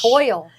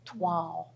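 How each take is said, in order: First: It is said without any W sound. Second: It is said with a W sound. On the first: The speaker calls it wrong. "You would think it's toil" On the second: The speaker calls it right. "like it's supposed to have a W in it"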